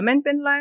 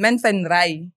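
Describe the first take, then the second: First: The last syllable starts with an L sound. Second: The last syllable starts with an R sound. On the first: This is how native speakers actually say it. "ang bigkas kasi nila" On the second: This is how it reads when written. "pag babasahin mo yun"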